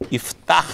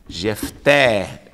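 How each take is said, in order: First: The name starts with an I sound. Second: The name starts with a J sound. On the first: The speaker calls it right. "essa é a palavra certa" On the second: The speaker calls it wrong. "por que que não pode ser Jefté? Porque a letra J, o som de J, justamente não existe no hebraico"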